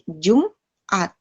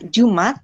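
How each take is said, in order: First: The word has a short break before the last syllable. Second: The word runs smoothly with no break inside. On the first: The speaker calls it right. "ada pemisahnya" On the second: The speaker calls it wrong. "nggak dibaca Jumat"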